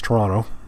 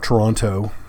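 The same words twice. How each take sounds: First: The last t is left silent. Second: The last t is clearly pronounced. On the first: The speaker is a local. The speaker calls it right. "You last tea silent if you're a local" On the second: The speaker is a visitor, not a local. The speaker calls it wrong. "Not Toronto"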